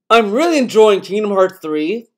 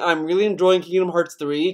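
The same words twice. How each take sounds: First: It is said in a put-on acting voice. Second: It is said in his normal voice.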